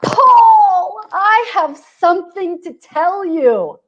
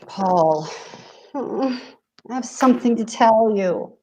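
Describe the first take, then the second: First: It sounds excited, like good news. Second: It sounds ominous, like bad news.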